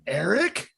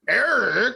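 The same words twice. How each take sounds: First: It sounds surprised, with a questioning tone. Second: It sounds angry, with a stern tone.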